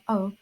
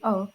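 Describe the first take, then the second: First: The diphthong has a conservative quality. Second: The diphthong has an advanced, shifted quality. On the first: Older, traditional speakers say it this way. "among conservative speakers" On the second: Some innovative speakers say it this way. "among some advanced speakers"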